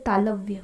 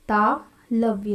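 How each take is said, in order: First: Said in the usual way. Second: तालव्य drawn out slowly, syllable by syllable; slow repeat. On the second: Shown as a demonstration. Teacher repeats the term for students, slow and deliberate. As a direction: stretch तालव्य out so students can copy it. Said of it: "इसको बोलते हैं तालव्य".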